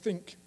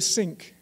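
First: The word begins with a 'th' sound. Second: The word begins with an 's' sound. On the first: This is the standard pronunciation. "So I say it like this" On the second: The speaker sounds German or French. "which will make you sound like a German or a French person"

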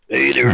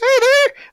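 First: It is said in a very deep voice. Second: It is said in a high, young voice.

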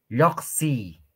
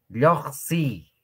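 The two takes are said the same way.

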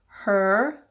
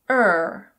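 First: The word is said in full with its H. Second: The word is reduced with the H dropped.

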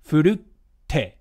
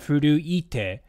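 First: A glottal stop comes before the final te. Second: A vowel sound comes before the final te. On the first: This is the modern form. "instead of the e, they just had a little glottal stop" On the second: This is the older classical form. "in classical Japanese, it should be furu-ite"

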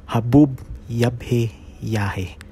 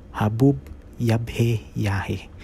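Both takes have the same delivery.

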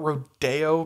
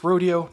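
First: The word has a Spanish-like pronunciation. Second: The word has the American English pronunciation. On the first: The speaker calls it wrong. "not rodeo" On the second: The speaker calls it right. "it's rodeo, not rodeo, because it's the Americanized Western word"

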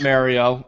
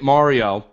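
First: The name is said the anglicized way. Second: The name is said the Italian way. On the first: The speaker calls it wrong. "not Mario. All Italians are offended" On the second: The speaker calls it right. "Let's start by calling it Mario"

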